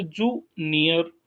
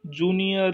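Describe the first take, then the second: First: junior broken into जू and near with a gap; split into syllables. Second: Said in the usual way. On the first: Shown as a demonstration. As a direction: pause after जू in junior. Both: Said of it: "इसमें दो ही syllable है".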